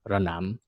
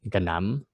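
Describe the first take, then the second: First: The word begins with an r sound. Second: The word begins with a g sound. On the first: This is the older written form. "they will write it with a r sound" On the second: This is the modern spoken dialect form. "we pronounce it with a g, with a g sound"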